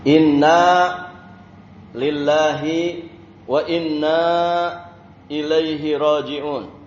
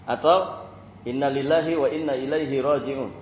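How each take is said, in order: First: The n in 'inna' is held long. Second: The n in 'inna' is said short. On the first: The speaker calls it right. "Yang panjang nunnya" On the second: The speaker calls it wrong. "yang pendek nunnya"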